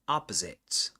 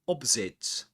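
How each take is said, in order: First: It is said in an American accent. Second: It is said in a British accent. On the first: "and American English" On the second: "opposite in British English"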